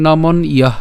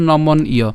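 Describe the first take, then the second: First: নমন ইয়ঃ ending on a breathed "ah"; visarga pronunciation. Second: নমন ইয় as "nomon-iyo", open ending; split pronunciation. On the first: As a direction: add the final h to নমন ইয়ঃ. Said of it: "তাই এখন বিসর্গ আছে". (নমন ইয়ঃ, শেষে বিসর্গ দিয়ে) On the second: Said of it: "তাহলে উচ্চারণটা কেমন হচ্ছে". (নমন ইয়, বিসর্গ ছাড়া) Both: Shown as a demonstration.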